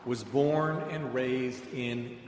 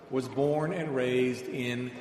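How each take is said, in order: Both takes have the same delivery.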